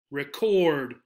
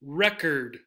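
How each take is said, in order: First: Record as "ri-KORD", ending like "ord"; full second vowel. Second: Record as "REK-erd", ending like "curd"; reduced second vowel. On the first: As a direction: verb record with a full or sound. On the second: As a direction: noun record with a weak er sound in the ending. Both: Shown as a demonstration. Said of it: "the actual sound in this second syllable is slightly different".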